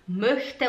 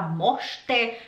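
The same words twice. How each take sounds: First: "möchte" with a rounded, fronted ö; correct pronunciation. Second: "mochte" with a plain open o, no umlaut; drawn-out "mochte" as a Portuguese-style o; mispronunciation. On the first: Teacher models the word for students, correctly pronouncing "möchte" with ö. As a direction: say "möchte" properly, with the umlaut vowel. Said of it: "em vez de falar". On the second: Teacher mimics a learner's error, mispronouncing "mochte" with plain o. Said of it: "você pronuncia as coisas tudo errado". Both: Shown as a demonstration.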